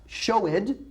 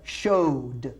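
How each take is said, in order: First: The ending is said as an extra syllable. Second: The ending blends in with no extra syllable. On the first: The speaker calls it wrong. "Not showed" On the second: The speaker calls it right. "but showed"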